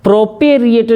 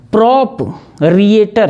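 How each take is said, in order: First: प्रोपेरिएटर run together with a "pe" in it; प्रोपेरिएटर with no break after "prop"; wrong pronunciation. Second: प्रोपरिएटर slowly broken as "prop... rieter"; प्रोपरिएटर in two slow, separate chunks; syllable-split pronunciation. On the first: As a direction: quickly say प्रोपेरिएटर as "pro-pe-rieter". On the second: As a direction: close प्रोपरिएटर's first part on "prop", pause, then "rieter". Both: Shown as a demonstration. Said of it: "जैसे बोलोगे गलत हो जाएगा".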